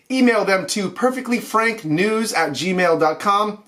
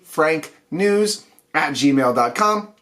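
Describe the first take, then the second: First: Said in the usual way. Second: Slow, clear dictation. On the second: Shown as a demonstration. Host dictates the show email to viewers, slow and clear. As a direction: say "perfectly frank news at gmail dot com" slowly, word by word. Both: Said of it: "One word".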